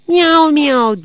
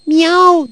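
First: High, loud meowed words, falling away; cat meow. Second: Very high, loud cat yowl; shouted meow. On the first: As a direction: voice a drawn-out cat's miaow. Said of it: "diye mırıldandı". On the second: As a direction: yell one sharp miaow like an angry cat. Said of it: "diye bağırdı". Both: A narrator's reading.

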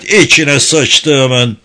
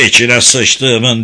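First: Very slow, louder shouted curse; louder repeated curse. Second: Slow, loud curse; shouted curse. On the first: Fred cursing again in horror, slow loud shout. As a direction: stretch the curse out even harder. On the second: Guard Fred cursing at the sight of the cell, slow loud shout. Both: Acted. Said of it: "diye bağırdı Fred".

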